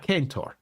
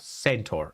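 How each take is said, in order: First: The word begins with a k sound. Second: The word begins with an s sound.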